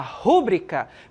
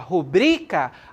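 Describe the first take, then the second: First: The stress is on the first syllable. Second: The stress is on the second syllable. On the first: The speaker calls it wrong. "perceba que a sílaba mais forte é o ru" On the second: The speaker calls it right. "a sílaba mais forte está no bri"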